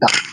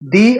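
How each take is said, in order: First: The vowel sounds like 'uh'. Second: The vowel sounds like 'ee'. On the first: It comes before a word starting with a consonant sound. "আর consonant সাউন্ডের আগে হয় দা।" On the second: It comes before a word starting with a vowel sound. "আর সেই ভাওয়ালের আগে যে উচ্চারণটা হয় সেটা হয় দি।"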